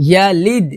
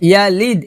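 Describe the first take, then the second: No difference in how they are said.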